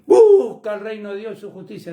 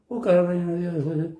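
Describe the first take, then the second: First: The phrase is said clearly and with emphasis. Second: The phrase is said weakly, barely voiced. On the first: The speaker calls it right. "en vez de decir" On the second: The speaker calls it wrong. "parece como que no lo quieren ni nombrar"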